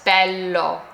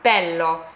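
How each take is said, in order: Both takes have the same delivery.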